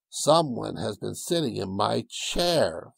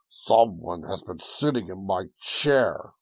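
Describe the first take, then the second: First: It is said in a medium, ordinary voice. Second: It is said in a deep, gruff voice.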